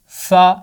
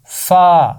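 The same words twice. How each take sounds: First: فا clipped short as just the sound, a quick fa; short letter sound. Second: فا drawn out long as the letter's name, faa. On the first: Teacher contrasting name and sound, short and loud. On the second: Teacher contrasting name and sound, slow and long. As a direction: stretch the name فا slowly. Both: Shown as a demonstration. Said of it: "اس کا نام لمبا ہے، آواز چھوٹی ہے۔".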